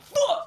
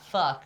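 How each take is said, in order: First: The word is said forcefully, with heavy emphasis. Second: The word is said casually, without force.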